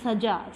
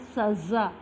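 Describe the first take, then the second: First: The middle consonant is a j sound. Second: The middle consonant is a z sound. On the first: The speaker calls it wrong. "जिसे बच्चे कह देते हैं सजा, सजा word नहीं है" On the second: The speaker calls it right. "यह है सज़ा"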